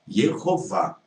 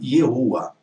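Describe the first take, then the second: First: The middle h sound is clearly breathed. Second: The middle h sound is left silent. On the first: The speaker calls it right. "é aspirada, então não é, não é muda" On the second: The speaker calls it wrong. "você não deveria ter pronunciado"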